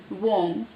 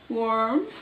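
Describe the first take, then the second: First: The r sound is not pronounced. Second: The r sound is strongly pronounced. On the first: "British simple warm" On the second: "American warm"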